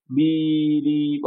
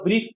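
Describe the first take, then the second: First: বি-রি- drawn out slowly on a level tone; split with spaces. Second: Said in the usual way. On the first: Shown as a demonstration. Teacher showing brief cannot be split, বি-রি- slowly pulled apart. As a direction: break it artificially into বি-রি-, each part stretched. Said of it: "space নিয়ে উচ্চারণ করতে পারবে?". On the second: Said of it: "একবারে উচ্চারণ না করে space নিয়ে".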